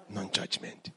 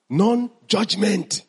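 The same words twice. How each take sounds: First: Breathy whisper, "Non-judgment" voiceless and hushed; soft whispered answer. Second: Stretched out slowly, "non-judgment" drawn syllable by syllable; slow teacher emphasis; slow and deliberate. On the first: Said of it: "teacher repeats pillar as whisper". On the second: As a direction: lay each part of "non-judgment" down slowly. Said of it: "teacher slowly spells out pillar". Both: Shown as a demonstration.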